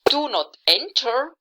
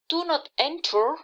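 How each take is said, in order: First: It is said in a firm, commanding tone. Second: It is said in a gentle, soft tone. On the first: It gives an instruction or demand. "it is an instruction. It may even can be a demand" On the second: It expresses a wish. "it's of course a wish"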